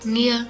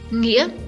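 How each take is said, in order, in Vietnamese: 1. Từ "nghĩa" mang thanh huyền. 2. Từ "nghĩa" mang thanh ngã.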